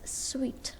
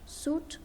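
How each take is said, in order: First: The word is pronounced like 'sweet'. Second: The word is pronounced like 'suit'. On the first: The speaker calls it right. "you have to pronounce it as suite" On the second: The speaker calls it wrong. "not suit"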